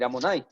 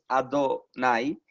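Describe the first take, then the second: First: The middle consonant is an M sound. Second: The middle consonant is a D sound. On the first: The divine name is avoided in conversation or teaching. "sino con una M" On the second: The divine name is said directly. "no lo decimos con D"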